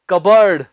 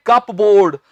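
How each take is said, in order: First: कबर्ड with a silent p, said as kub-urd; correct pronunciation. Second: कपबोर्ड with the p said, as cup-board; wrong pronunciation. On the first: Teacher giving students the correct form. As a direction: drop the p: कबर्ड. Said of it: "इसका सही accent है". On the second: Teacher demonstrating the common wrong way. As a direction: say कपबोर्ड sounding the p fully. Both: Shown as a demonstration.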